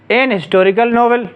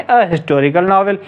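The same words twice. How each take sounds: First: "एन historical novel" with an N in the article; native-speaker article usage. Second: "अ historical novel" with a bare schwa article; common article usage. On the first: Teacher showing native usage, "एन" before historical novel. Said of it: "कुछ native speakers एन इस्तेमाल करते हैं". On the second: Teacher giving the commoner form, "अ" before historical novel. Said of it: "more common है". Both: Shown as a demonstration.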